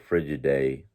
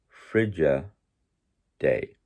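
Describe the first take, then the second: First: The two words run together without a break. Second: The two words are separated with a break. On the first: The speaker calls it wrong. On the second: The speaker calls it right.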